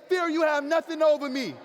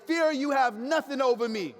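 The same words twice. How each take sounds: First: Louder, forceful declaration; rallying the crowd to defy fear, louder; said like you mean it. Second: Said in the usual way. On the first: Shown as a demonstration. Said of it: "Say it again like you mean it". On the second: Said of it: "look to your neighbor right now and say".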